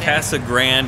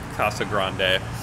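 First: It is said with an English-style local pronunciation. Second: It is said with a Spanish-style pronunciation. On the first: This is how residents say it. "if you're from here. Local" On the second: This follows the original Spanish. "If you follow the Spanish diction"

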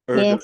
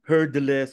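First: The name begins with a vowel, no H. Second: The name begins with an audible H sound. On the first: The speaker calls it wrong. "you don't sound the H" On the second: The speaker calls it right. "Ah, Herdeles"

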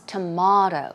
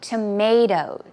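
First: It is said with a non-American pronunciation. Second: It is said with an American pronunciation. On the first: "But elsewhere, for example, it can be pronounced as tomato" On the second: "in America, of course, we say tomato"

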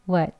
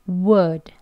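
First: The w stays but the vowel is reduced. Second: The w and full vowel are both clearly said. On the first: "약형은... 어 하는 소리를 넣어서" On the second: "이게 강형이고요"

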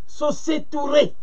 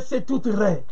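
First: The name ends with a 'tooray' sound. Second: The name ends with a short 'ray' sound. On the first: This is how the ancient Egyptians said it. "prononcé par les Égyptiens anciens, vocalisé" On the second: This is the pronunciation used by modern scholars. "c'est les prononciations des locodèmes"

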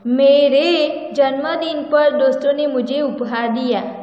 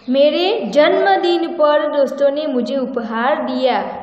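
First: The word मेरे is stressed. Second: The word जन्मदिन is stressed.

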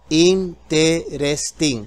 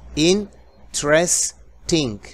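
First: The word is said with four syllables. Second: The word is said with three syllables. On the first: The speaker calls it wrong. "cuatro sílabas" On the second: The speaker calls it right. "se hacen solamente tres"

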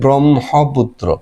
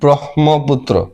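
First: The h sound comes after the m sound. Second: The h sound comes before the m sound. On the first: The speaker calls it right. "কিন্তু উচ্চারণ করতে হয় পরে হ" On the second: The speaker calls it wrong. "হওয়ার কথা হ ম"

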